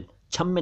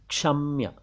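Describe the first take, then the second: First: क्षम्य said as "chhamme"; wrong chh onset. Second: क्षम्य said as "ksham-ya"; correct ksh onset. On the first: Teacher rejecting mispronunciation: क्षम्य as "chhamme". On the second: Teacher correcting learners: क्षम्य as "ksham-ya". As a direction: say क्षम्य with k before sh and a y glide. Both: Shown as a demonstration. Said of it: "क्षम्य नहीं".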